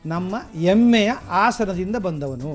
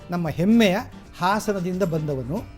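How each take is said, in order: First: The initial h sounds are dropped from the words. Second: The initial h sounds are clearly pronounced. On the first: The speaker calls it wrong. "ಅವರಿಗೆ ಮಹಾಪ್ರಾಣ ಅಲ್ಪ ಪ್ರಾಣ ಗೊತ್ತಿರಲಿಲ್ಲ" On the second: The speaker calls it right. "ಅವ್ರು ಹೇಳಬೇಕಾಗಿದ್ದು ಏನಂತ ಹೇಳಿದ್ರೆ"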